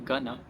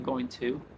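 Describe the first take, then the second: First: Going to is shortened to gonna. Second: Going to is said fully as two words. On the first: The speaker calls it right. "they say gonna" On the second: The speaker calls it wrong. "They don't say"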